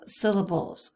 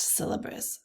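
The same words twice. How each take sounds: First: "syllables" corrected, with "-bulz" at the end; self-correction. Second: "syllabus" slipped in for "syllables", ending in "-bus"; slip of the tongue. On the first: Teacher fixing her slip, corrected "syllables". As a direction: put the l back in "syllables". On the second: Teacher tripping over the term, slipping into "syllabus". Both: Real, not acted. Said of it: "I can't stop saying syllabus".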